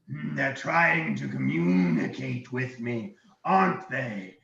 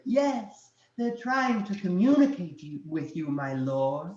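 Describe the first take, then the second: First: Slow, suspicious dragon. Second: High-pitched fawning minion; small servant voice. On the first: Dragon talking to himself about intruders, dragon voice. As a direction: muse slowly as a wary dragon. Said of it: "he looks around and he goes". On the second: Dragon answering himself as his minion, small voice. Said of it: "you hear the small voice go". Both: Acted.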